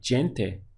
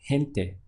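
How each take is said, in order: First: The first sound is said as in English. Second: The first sound is a breathy h sound. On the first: The speaker calls it wrong. "normally we might say like gente in English" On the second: The speaker calls it right. "again takes a H sound"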